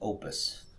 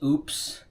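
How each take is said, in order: First: It sounds like two syllables, oh-pus. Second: It sounds like the word oops. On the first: The speaker calls it right. "I do believe the correct pronunciation is opus" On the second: The speaker calls it wrong. "I've heard people pronounce this as oops"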